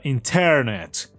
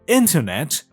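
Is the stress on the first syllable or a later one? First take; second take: later; first. First: The stress falls on a later syllable. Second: The stress falls on the first syllable. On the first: The speaker calls it wrong. "یا اینترنت" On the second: The speaker calls it right. "یک نیتیو اسپیکر میگه اینترنت"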